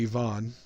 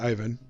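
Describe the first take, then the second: First: It is said the Russian way. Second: It is said the American way.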